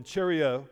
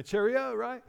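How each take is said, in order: First: Lightly put-on English accent; a hint of jolly English "Cheerio". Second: High, hammed-up English accent; exaggerated English accent, pitched way up. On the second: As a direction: chirp it in a mock English accent. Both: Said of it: "There's my English accent coming in".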